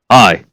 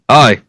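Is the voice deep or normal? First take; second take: deep; normal. First: It is said in a put-on deep voice. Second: It is said in a normal voice.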